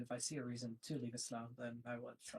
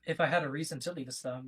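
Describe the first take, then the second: First: Soft, trailing away; too quiet to hear. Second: Raised volume, clearly projected; speaking louder. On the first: Guest answering why he stays in his faith, too quietly. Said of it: "Can you speak louder". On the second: Guest repeating himself for the host who asked, louder. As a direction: say it up so they can hear. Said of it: "Can you speak louder, please?". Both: Real, not acted.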